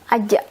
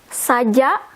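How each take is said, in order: First: The word starts with a vowel, no s. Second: The word starts with an s sound.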